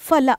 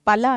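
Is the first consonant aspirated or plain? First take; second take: aspirated; plain. First: The first consonant is an aspirated ph. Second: The first consonant is a plain unaspirated p. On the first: The speaker calls it right. "ಫ ಫಲ" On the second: The speaker calls it wrong. "ಫಲ ಅನ್ಬಾರ್ದು"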